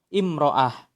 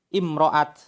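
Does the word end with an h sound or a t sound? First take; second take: h sound; t sound. First: The word ends with an h sound. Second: The word ends with a t sound. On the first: The feminine marker's sound is lost when pausing. "diakhiri dengan ta marbutoh, maka akan hilang ... bunyi huruf ta'nya" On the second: The feminine marker is kept when pausing. "Ketika diwaqafkan, ta'ut ta'nisnya tidak hilang"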